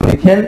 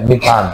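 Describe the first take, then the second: First: Said in the usual way. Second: মিথান ending in open "thaan" instead of "then"; changed name ending. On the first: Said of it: "আগে ছিল মিথেন". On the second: Shown as a demonstration. Teacher contrasting the name without e, "thaan" ending in মিথান. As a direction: say মিথান with "a" in the last syllable. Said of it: "ইটা না থাকার কারণে কি হবে".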